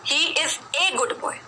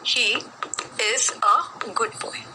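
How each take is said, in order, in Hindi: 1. आर्टिकल 'a' को लंबे 'ay' की तरह बोला जाता है। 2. आर्टिकल 'a' को छोटे 'uh' की तरह बोला जाता है। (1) "ए क्यों नहीं बोला मैंने यहां पर" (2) "ए जब अकेला आता है तो उसकी ध्वनि का उच्चारण होता है अ"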